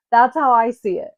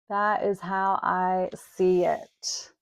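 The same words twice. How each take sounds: First: Said in the usual way. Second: IS stressed in "That is how I see it", measured slow; slow emphatic. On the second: Shown as a demonstration. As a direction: lay it down deliberately, word by word.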